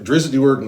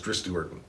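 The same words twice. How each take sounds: First: The name is said with extra sounds added. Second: The name is said without any added sounds. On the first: The speaker calls it wrong. "is how I originally read it" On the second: The speaker calls it right. "I'm adding letters, so it's"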